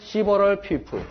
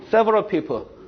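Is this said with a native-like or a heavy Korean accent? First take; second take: Korean accent; native-like. First: It is said with a heavy Korean accent. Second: It is said with native-like English pronunciation. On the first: The speaker calls it wrong. "저는 어떻게 읽어요? … 이렇게 읽었어요" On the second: The speaker calls it right. "이거 어떻게 읽어요?"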